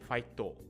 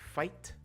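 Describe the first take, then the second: First: The word ends with an added o vowel. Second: The word ends crisply on a t sound. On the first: The speaker calls it wrong. "you don't want to say the final to sound" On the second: The speaker calls it right. "You just want the t"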